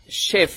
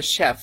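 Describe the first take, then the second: First: শেফ with a closed "e", as "shayf"; expected spelling pronunciation. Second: শেফ with an open vowel, near "shaf"; British-American pronunciation. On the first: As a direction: say শেফ with the vowel of Bangla "kek". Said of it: "হওয়ার কথা ছিল". (শেফ-এ সংবৃত "এ" উচ্চারণ) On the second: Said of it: "ওরা বলে শেফ". (শেফ-কে "শ্যাফ"-এর মতো উচ্চারণ) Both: Shown as a demonstration.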